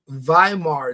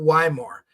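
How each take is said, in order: First: The word starts with a V sound. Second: The word starts with an English W sound. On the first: The speaker calls it right. "we don't have a double U, we have a double V. So it's Weimar" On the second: The speaker calls it wrong. "You're pronouncing it wrong. It's not Weimar"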